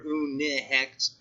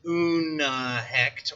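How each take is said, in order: First: "unhecht" as oon-ih-hekt, slowly; linking i sound. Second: "unhecht" as oon-uh-hekt, slowly; linking uh sound. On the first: Teacher offering the other variant, "unhecht" with linking i. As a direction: say "unhecht" with a short i between un and hecht. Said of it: "I put an I in there". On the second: Teacher offering one variant of the prefix, "unhecht" with linking uh. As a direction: say "unhecht" with an uh between un and hecht. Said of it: "depending on who you ask". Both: Shown as a demonstration.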